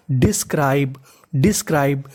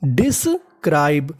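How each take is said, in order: First: Said in the usual way. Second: describe said slowly, syllable by syllable; slow careful word. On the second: Shown as a demonstration. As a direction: stretch out describe clearly for the class. (धीरे-धीरे साफ़ उच्चारण) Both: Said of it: "तो meaning बनी".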